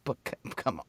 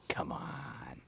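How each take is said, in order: First: Said in the usual way. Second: Whispered come on, breathy and low. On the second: Shown as a demonstration.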